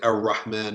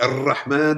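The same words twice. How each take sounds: First: The r is a hard English-style r. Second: The r is a long rolled trill. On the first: "neither the hard R of English ... we don't say Ar-Rahman, Ar-Rahim. That's wrong" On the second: "don't trill it, roll it like Ar-Rahman, Ar-Rahim. We don't do that"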